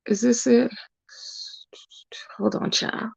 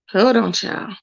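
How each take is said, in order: First: Real whisper, much softer; hushed, absent-minded aside. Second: Said in the usual way. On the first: Real, not acted. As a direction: whisper to yourself while searching. Muttering while searching for the post.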